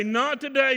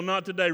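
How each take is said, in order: First: NOT TODAY flung out high and loud; Not today, rising high in defiance; defiant cry. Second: Said in the usual way. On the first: Acted. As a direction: hurl "Not today" at the devil. Defiant cry in preached quote.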